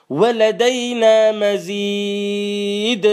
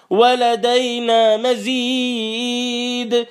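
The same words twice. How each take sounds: First: Slow drawn-out chant of ولدينا مزيد; Quran recitation. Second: ولدينا مزيد chanted slowly and pitched higher; climbing recitation. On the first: Preacher reciting the verse to the congregation, slow chant. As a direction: stretch ولدينا مزيد long and level. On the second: Preacher repeating the verse, rising in a higher slow chant. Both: Acted.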